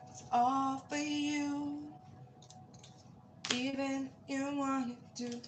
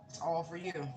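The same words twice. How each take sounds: First: It's all for you, much higher and slowly stretched out; high drawn-out. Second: Said in the usual way. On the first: Pretend. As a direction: croon "all" up high, lingering on it. Repeats the line, second take sung-out.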